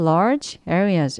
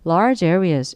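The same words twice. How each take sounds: First: The two words are separated by a break. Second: The two words are linked without a break. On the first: The speaker calls it wrong. "이렇게 끊기지 않고" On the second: The speaker calls it right. "이어지죠"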